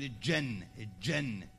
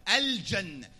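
First: الجنة said as "ijenna", the lam swallowed into the jim; dialect pronunciation. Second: الجنة said "al-janna" with the lam clearly sounded; correct pronunciation. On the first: Preacher mimicking the local dialect's slip, lam swallowed. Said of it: "إحنا عندنا غلط في لهجتنا". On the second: Preacher showing the proper classical form, lam pronounced. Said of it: "تلفظ اللام". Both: Shown as a demonstration.

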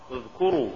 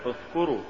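First: Said in the usual way. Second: اذكروا with ذ devoiced to ث; faulty reading of اذكروا, ث replacing ذ; mispronounced ذ. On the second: Shown as a demonstration. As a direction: say اذكروا with th as in "thin". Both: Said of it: "تقرأ لحنا".

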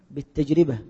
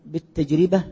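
First: بالتجربة with the ra said as ri, bit-tajribah; with kasra on the ra. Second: Said in the usual way. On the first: Shown as a demonstration. Teacher correcting a student's vowel on بالتجربة. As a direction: stress the kasra under the ra in بالتجربة. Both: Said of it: "بكسر الراء".

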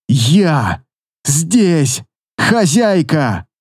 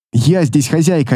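First: Хозяйка stretched very slowly and falling; Я здесь хозяйка dragged out word by word with effort; drawn-out straining cry. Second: Said in the usual way. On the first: A narrator's reading. Final mental effort.

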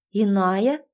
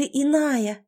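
First: "Иная?" with a questioning rise at the end; echo question. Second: Said in the usual way. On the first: Acted. Heroine queries the word used for her, asking back "Иная?" with a rise. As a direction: ask back "Иная?", lifting the last syllable. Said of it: "переспросила я".

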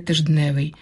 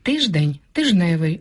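First: Тижневий said with the д, as тиждневий; тижневий with an audible д, the wrong form; wrong cluster. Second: Тижневий said without д, as тиж-невий; тижневий pronounced with no д; simplified cluster. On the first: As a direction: sound the д in тижневий. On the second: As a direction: drop the д in тижневий. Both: Shown as a demonstration. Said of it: "а не".

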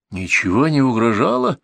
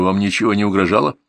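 First: Incredulous echo, pitch swinging up; understated full-voice outcry; indignant exclamation. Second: Said in the usual way. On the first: A narrator's reading. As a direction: exclaim it in outraged disbelief. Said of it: "воскликнул я во весь голос".

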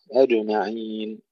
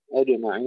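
First: Slow أجمعين, the ج released with a quick open bounce; bounced jim. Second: أجمعين with a clear echoing bounce on the ج; bounced jim. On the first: Teacher showing the class how the mouth opens in أجمعين. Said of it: "نفتح الفم بسرعة". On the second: Teacher drilling students on the qalqala in أجمعين. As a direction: let the ج of أجمعين bounce open. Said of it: "القلقلة في الجيم". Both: Shown as a demonstration.

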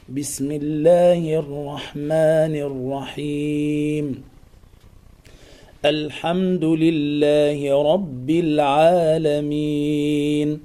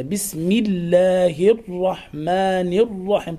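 First: Very slow, measured Quranic chant; sung, unforced recitation. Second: Overdone, slow, heavy articulation of "بسم الله الرحمن الرحيم"; exaggerated recitation. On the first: Teacher shows how to recite without affectation, unforced chant. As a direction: chant it smoothly without strain, vowels drawn out. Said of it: "أقول هكذا بلا تكلف". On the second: Teacher mimics over-strained Quran readers, exaggerated. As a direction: lean too hard on every letter of "بسم الله الرحمن الرحيم". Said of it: "طبعًا هذه مبالغة". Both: Shown as a demonstration.

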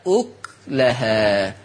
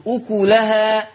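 First: "أكلها" as uk-lahā, slow and lower, k closed; سكون الكاف. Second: "أكلها" as ukulahā, u after the k; ضم الكاف. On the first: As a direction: halt on the k of "أكلها", then lahā. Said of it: "يقرأ ورش بسكون الكاف". ("أكلها" بسكون الكاف) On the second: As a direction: say "أكلها" with a full ku syllable. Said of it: "تقرأ بضم الكاف". ("أكلها" بضم الكاف) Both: Shown as a demonstration.

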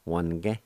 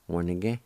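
First: "Wanige" in two syllables, like "wan-ge"; silent I. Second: "Wanige" in three connected syllables, with "ni" sounded; full pronunciation. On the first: Teacher showing learners the other way, middle vowel silent. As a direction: say "Wanige" dropping the I after the N. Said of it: "the I with the N is silent". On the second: Teacher saying the whole word for learners, middle vowel sounded. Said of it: "it's pronounced like this". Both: Shown as a demonstration.

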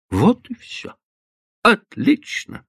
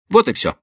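First: Higher, slow mocking echo; mocking repeat. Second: Said in the usual way. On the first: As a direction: repeat her words back with grim irony. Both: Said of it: "повторил Батлер".

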